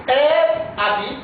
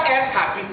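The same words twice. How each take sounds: First: Habite with a silent h, as abi; Elle habite said ɛ abi, no h; correct habite. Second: Habite said with an h breath, as hapit; wrong habite. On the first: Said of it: "la lettre H ici ne se prononce pas". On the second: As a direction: say habite with a sounded h and final t. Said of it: "Pas elle habite". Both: Shown as a demonstration.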